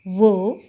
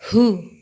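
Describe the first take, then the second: First: It begins with a w sound, like wo. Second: It begins with an h sound, like hoo. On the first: The speaker calls it wrong. "Jangan dibaca wo" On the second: The speaker calls it right. "tapi dibaca who"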